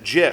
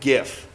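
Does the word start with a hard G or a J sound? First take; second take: J sound; hard G. First: The word starts with a soft J sound. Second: The word starts with a hard G sound. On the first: The speaker calls it wrong. "he pronounces it GIF" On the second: The speaker calls it right. "You pronounce it GIF"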